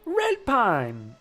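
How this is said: It is said with lively excitement. The writer was enthusiastic about it. "you said it with an exclamation mark too"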